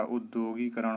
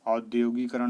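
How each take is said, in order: First: उद्योगीकरण opened with a short "u"; correct pronunciation. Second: औद्योगीकरण opened with an "au" vowel; wrong pronunciation. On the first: Teacher gives the right form, short "u" opening उद्योगीकरण. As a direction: start उद्योगीकरण on "ud", not "aud". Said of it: "होता है". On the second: Teacher voices the common error, "au" at the start of औद्योगीकरण. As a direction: say औद्योगीकरण with a louder initial "au". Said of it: "नहीं होता". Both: Shown as a demonstration.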